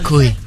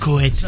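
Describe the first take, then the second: First: The name is said like 'coé'. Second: The name is said like 'couette'. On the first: The speaker calls it right. "C'est Coé" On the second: The speaker calls it wrong. "pas Couette"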